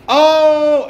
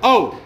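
First: "आओ" stretched long and higher; drawn-out demo. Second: "आओ" short, in one go; a single quick "आओ" as the model; said just once. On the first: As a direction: drag out "आओ" to show the mistake. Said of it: "ऐसे नहीं बोलना". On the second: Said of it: "एक ही बार बोलना है". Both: Shown as a demonstration.

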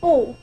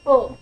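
First: 五 as the long oo in room; 五 as a sustained English vowel; long oo sound. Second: 五 as the short oo in book; 五 as a brief English oo; short oo sound. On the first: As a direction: hold 五 out as a tense oo. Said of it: "第二个几率是五". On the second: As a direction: cut 五 short, lax like the vowel of look. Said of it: "最大的几率是这个". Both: Shown as a demonstration.

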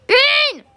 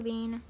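First: High, sharp call. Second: Said in the usual way. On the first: Real, not acted. Calling a missing co-player, high insistent call. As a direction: call the name out, pitched way up.

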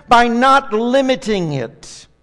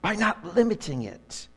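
First: The word not hit firm and slow; stressed not. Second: Softer repeat. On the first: Pastor telling the church the secret, not stressed slowly. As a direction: lean hard on not, drawn out. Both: Shown as a demonstration. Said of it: "Here's the secret".

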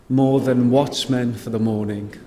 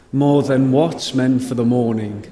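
The two takes are said the same way.

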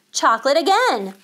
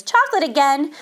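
First: Raised, louder, thrilled exclamation; excited storyteller's exclamation; delighted discovery. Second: Raised, louder exasperated question; mother tired of hearing this; mildly dismayed, disbelieving query; protesting. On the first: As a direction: relish a wonderful surprise. Narrated delight at the taste. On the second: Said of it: "protested Missus Midas". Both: A narrator's reading.

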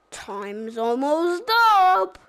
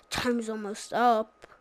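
First: Silly clown. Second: Said in the usual way. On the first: Retold or imitated. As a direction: announce it like a goofy cartoon clown. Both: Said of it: "that's my Banana Split voice".

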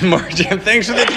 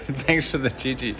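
First: High, loud, excited thank-you. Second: Softer, laughing thank-you; laughing redo. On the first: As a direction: beam the thanks out to Martin. Excited thanks on live stream. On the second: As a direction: redo it calmly through a chuckle. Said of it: "I was trying not to have a". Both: Real, not acted.

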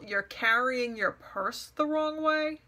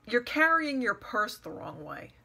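First: Slow, drawn-out disbelieving question; incredulous echo. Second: Mildly picky, retold fault-finding; retold criticism. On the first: Retold or imitated. Questioning the nonsense criticism she was given, incredulous mock echo. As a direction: repeat it slowly as if it were absurd. Repeats remark as absurd question. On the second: A woman criticizing her as she leaves, mock nitpicking. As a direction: point out a petty fault, lightly imitated.

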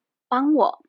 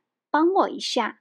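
First: 帮我 said short and blunt, as a command; 帮我 as a plain blunt demand; curt order. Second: 帮我一下 said lightly, as a polite ask; 帮我一下 as a gentle, friendly favour; friendly request. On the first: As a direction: bark 帮我 like an order, a bit louder. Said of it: "it may sound like an order". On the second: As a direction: soften it with 一下, friendly tone. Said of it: "it sounds more friendly". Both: Shown as a demonstration.

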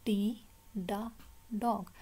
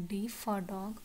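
First: "D", pause, short "da", pause, "dog"; letter, sound, word. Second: Said in the usual way. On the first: Shown as a demonstration. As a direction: break "D, da, dog" into three spaced beats. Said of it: "आपने इसको क्या पढ़ना है". ("D, da, dog" तीन हिस्सों में रुककर) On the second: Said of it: "आपने इसको यूँ नहीं पढ़ना".

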